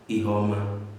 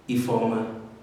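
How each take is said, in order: First: The middle consonant is an h sound. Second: The middle consonant is an f sound. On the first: "F and H" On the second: "F and H"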